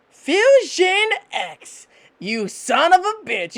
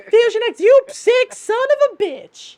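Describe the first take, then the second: First: High, drawn-out furious scolding; enraged knife spirit. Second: Very high, loud put-on woman's voice; furious chick voice. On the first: Acted. Knife spirit cursing her husband in his head, furious. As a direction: stretch the name out, high and angry. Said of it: "you hear this in the back of your head". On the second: Knife wife cursing Fusion X, furious high female voice. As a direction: curse him out way up high, stretching the insult. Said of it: "should I sound like this?".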